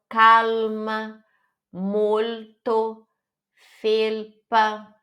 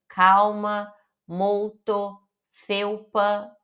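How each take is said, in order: First: "calma, molto, felpa" with a full clear L. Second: "Calma" said "cawma", the L turned into a U sound. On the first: Teacher models the Italian L, clear L. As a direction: keep the tongue up for the L in "calma". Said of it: "tem o som de L mesmo". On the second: Teacher imitates students' Portuguese habit, L as U. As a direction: let the L in "Calma" become a U. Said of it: "falando L com som de U". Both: Shown as a demonstration.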